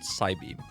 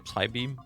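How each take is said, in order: First: The word starts with an s sound, no p. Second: The word starts with a p sound. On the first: "or is it Psybeam?" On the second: "I always say Psybeam, but maybe you don't even pronounce it"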